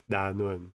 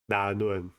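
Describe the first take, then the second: No difference in how they are said.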